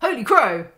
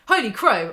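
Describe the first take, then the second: First: Louder, punchier holy crow; loud exclaim. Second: Excited exclaim. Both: Real, not acted.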